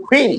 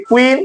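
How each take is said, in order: First: কুইন with a breath-puffed kh at the start; new aspirated K. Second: কুইন with a plain, unaspirated k; old unaspirated K. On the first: Teacher showing learners the new way, aspirated kh in কুইন. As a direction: say কুইন as khuin, airy k. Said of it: "এখন করব". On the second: Teacher showing learners the old way, plain k in কুইন. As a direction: say কুইন with no puff of air. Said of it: "আগে আমরা উচ্চারণ করেছি". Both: Shown as a demonstration.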